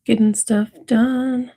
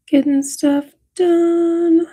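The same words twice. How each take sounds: First: Said in the usual way. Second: Much higher, slow squeaky "Getting stuff done."; high sing-song. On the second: Pretend. Streamer answering her own question to chat in a high, slow squeak. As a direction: chirp "done" up high like a cartoon.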